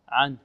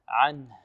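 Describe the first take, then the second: First: The final h sound is dropped. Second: The final h sound is clearly audible. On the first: The speaker calls it wrong. "بعض الطلاب يقول عن عن ... أين الهاء؟ لا" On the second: The speaker calls it right. "بل لابد من إيضاح الهاء. هكذا"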